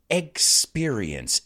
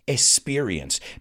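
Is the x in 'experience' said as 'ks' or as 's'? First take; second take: ks; s. First: The x is said as a ks sound. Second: The x is said as a plain s sound. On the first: The speaker calls it right. "Piensa como si estuviera ahí una K" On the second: The speaker calls it wrong. "I hear a lot of students pronounce it like an S"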